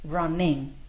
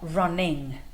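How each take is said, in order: The two takes are said the same way.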